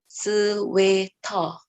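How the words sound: It is said with a Korean loanword pronunciation. "Pero sa kanila, sweater"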